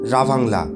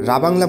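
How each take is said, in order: First: The second consonant is a v sound. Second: The second consonant is a b sound. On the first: This is the name's original pronunciation. "তবে আসল উচ্চারণ রাভাংলা" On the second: This is how people commonly say the name. "জায়গাটার নাম রাবাংলা বলে থাকি"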